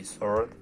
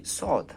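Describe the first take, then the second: First: Sword with the R sounded, sorrd; American sword. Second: Sword with no R, a long saw sound, pitched higher; British sword. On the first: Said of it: "In American we say sword". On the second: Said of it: "in British we say sword". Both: Shown as a demonstration.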